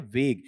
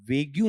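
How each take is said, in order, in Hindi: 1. शब्द 'g' ध्वनि पर साफ़ खत्म होता है। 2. शब्द के अंत में एक अतिरिक्त 'yoo' ध्वनि जुड़ी है। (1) "बल्कि क्या है, वेग" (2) "इसका उच्चारण वेग्यू नहीं है"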